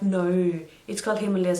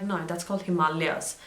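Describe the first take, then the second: First: Himalayas as him-uh-LAY-uhz; others' pronunciation. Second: Himalayas as hi-MAH-lee-as; correcting pronunciation. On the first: Colleagues contradicting her at work, Himalayas as him-uh-LAY-uhz. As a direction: stress LAY in Himalayas, insisting on it. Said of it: "And they're like". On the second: Vlogger correcting people at work, Himalayas as hi-MAH-lee-as. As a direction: stress the long MAH in Himalayas. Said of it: "That's how it's said". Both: Retold or imitated.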